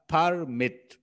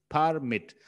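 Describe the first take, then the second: No difference in how they are said.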